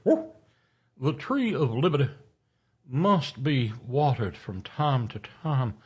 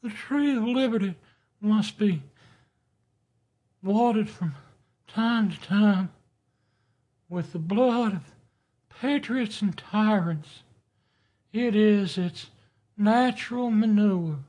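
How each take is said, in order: First: Orating quote. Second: High, thin, reedy Jefferson voice. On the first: Shown as a demonstration. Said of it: "wait, he had a thin, high, reedy voice". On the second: Retold or imitated. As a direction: squeak it out like a reedy founding father. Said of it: "he had a thin, high, reedy voice".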